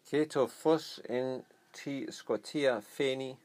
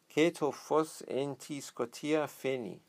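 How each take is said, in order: First: It is read at a slower pace. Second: It is read at a faster pace.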